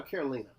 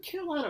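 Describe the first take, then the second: First: "Carolina" with a long ee in the third syllable; "Carolina" with ee sound. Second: "Carolina" rhymed with the US state, long i in the third syllable. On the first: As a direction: say "Carolina" ending like "leen-uh". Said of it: "It's Carolina". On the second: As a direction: say "Carolina" ending like "line-uh". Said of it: "I wanna make sure I get her name right". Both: Shown as a demonstration.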